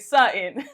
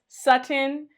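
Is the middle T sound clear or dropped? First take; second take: dropped; clear. First: The middle T is dropped or swallowed. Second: The middle T is clearly pronounced. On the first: The speaker calls it wrong. "lazy with her name" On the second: The speaker calls it right. "pronounce both T's"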